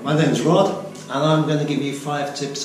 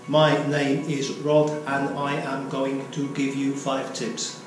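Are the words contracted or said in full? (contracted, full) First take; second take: contracted; full. First: Words are contracted and the delivery sounds natural. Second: Every word is said in full, sounding robotic. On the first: This is the natural way people talk. The speaker calls it right. "use contractions" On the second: The speaker sounds like a robot. The speaker calls it wrong. "I sound like a robot"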